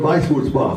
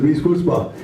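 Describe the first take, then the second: First: Weiss said "vice", German v sound and long ai; German spelling pronunciation. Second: Weiss said like "wiss", English w and short i; local pronunciation. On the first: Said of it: "It's not the way it's spelled, it's spelled". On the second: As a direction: say Weiss as "wiss", then Wurzbach. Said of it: "we pronounce it Weiss Wurzbach". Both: Shown as a demonstration.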